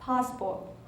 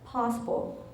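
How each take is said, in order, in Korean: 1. 영국식 억양으로 말해요. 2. 영국식 억양으로 말해요.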